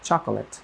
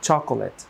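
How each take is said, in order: Both takes have the same delivery.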